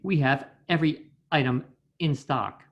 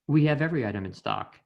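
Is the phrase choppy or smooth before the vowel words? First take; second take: choppy; smooth. First: Small catches break the words starting with vowels. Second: The words flow together with no catches between. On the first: The speaker calls it wrong. "more than likely the voice actor will say" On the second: The speaker calls it right. "rather than"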